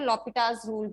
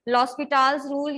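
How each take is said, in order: First: The s sound in the name is silent. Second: The s sound in the name is pronounced. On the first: "एस आप silent भी ले सकते हो" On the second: "exact pronunciation"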